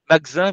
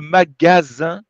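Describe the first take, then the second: First: The second A is swallowed and barely heard. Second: The second A is fully and clearly pronounced. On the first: The speaker calls it wrong. "vous mangez le deuxième A un petit peu" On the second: The speaker calls it right. "Donc, c'est le magasin"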